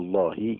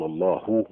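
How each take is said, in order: First: The final h is followed by an i vowel. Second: The final h is followed by a u vowel. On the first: "بالكسره الله ما يصحش" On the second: "قال لك بالضمه ما يصح"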